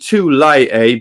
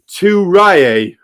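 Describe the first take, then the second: First: The middle consonant is an L sound. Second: The middle consonant is an R sound. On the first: It follows the original Polynesian word. The speaker calls it right. "it's definitely Tulaye" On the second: It reflects an Irish or American Irish way of saying it. The speaker calls it wrong. "quite often you hear Turaye"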